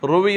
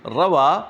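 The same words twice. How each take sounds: First: "روی" read as passive ruwiya; "روی" with o then i vowels, as passive verb; passive misreading. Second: "روا" read as active rawaa; "روا" pronounced ra-VAA, long final a; active-verb reading. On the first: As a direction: say "روی" as three syllables, ro-vi-ya. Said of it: "روی یہ نہیں پڑھیں". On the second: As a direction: say "روا" with two a vowels, ra-waa. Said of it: "یہ نہیں پڑھیں کیونکہ آگے فاعل آ رہا ہے". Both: Shown as a demonstration.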